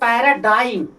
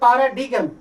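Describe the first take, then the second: First: It starts with 'ae' and ends in 'dime'. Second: It starts with 'ah' and ends in 'digam'. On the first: The speaker calls it right. "Real pronunciation" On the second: The speaker calls it wrong. "ऐसे हिंदी में पढ़ेंगे पारा डीगम लेकिन"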